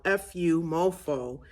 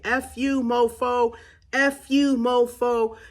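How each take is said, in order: First: Said in the usual way. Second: High, loud angry scream; furious yell, letting the anger out; screaming at them. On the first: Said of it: "it's very childish". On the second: Shown as a demonstration. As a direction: scream it at the person who hurt you. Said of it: "you just start yelling, you start screaming".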